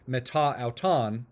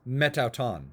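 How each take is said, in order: First: The final vowel of meta is kept. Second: The final vowel of meta is dropped. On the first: The speaker calls it wrong. "instead of" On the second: The speaker calls it right. "it's metauton"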